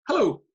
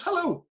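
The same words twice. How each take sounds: First: Loud, high-pitched mock phone hello; exasperated answer. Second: Very high mock hello; clueless caller. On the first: Manager answering his player's call, loud exasperated hello. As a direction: retell an exasperated hello, punched up. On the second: Clueless player greeting his manager, high-pitched imitation.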